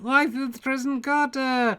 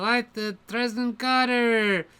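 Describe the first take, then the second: First: It is said in a non-American accent. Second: It is said in an American accent.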